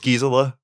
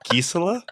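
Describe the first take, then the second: First: The name is said in a plain English way. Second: The name is said with an Austrian accent. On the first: The speaker calls it wrong. "but you don't say it like that" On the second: The speaker calls it right. "You say it with the accent because she's Austrian"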